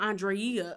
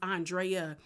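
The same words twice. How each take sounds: First: The stress falls heavily on the final syllable. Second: The stress falls before the final syllable. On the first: The speaker calls it wrong. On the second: The speaker calls it right.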